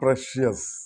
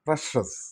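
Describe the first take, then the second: First: The middle sound is sh followed by y. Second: The middle sound is plain sh without y. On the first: The speaker calls it wrong. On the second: The speaker calls it right.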